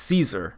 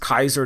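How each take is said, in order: First: It begins with an s sound, like see. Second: It begins with a k sound, like kai. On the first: The speaker calls it right. "It's Caesar" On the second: The speaker calls it wrong. "that is not even the correct pronunciation"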